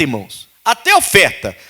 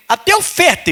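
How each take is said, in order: First: Said in the usual way. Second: "até oferta" with "até" leaping much higher; emphatic até oferta. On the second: Shown as a demonstration. Pastor stressing that even offerings test you, emphatic. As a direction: hit "até" high and sharp in "até oferta".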